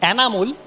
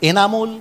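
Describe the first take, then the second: First: The first vowel is open, like 'cat'. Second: The first vowel is closer, like 'bed'. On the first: The speaker calls it wrong. "ছাগল sound" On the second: The speaker calls it right. "এ sound ব্যবহার করব"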